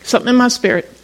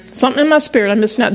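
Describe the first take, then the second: First: "my" stressed, the phrase set apart and falling. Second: Quick restatement. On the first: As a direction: weigh the word "my" and let the phrase land. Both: Shown as a demonstration.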